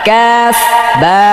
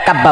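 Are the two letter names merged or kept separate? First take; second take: separate; merged. First: The two names are said as separate words. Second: The two names run together as one word. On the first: The speaker calls it right. "এটা কাফ বা" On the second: The speaker calls it wrong. "এটা কাব্বা বলে, কাব্বা নট"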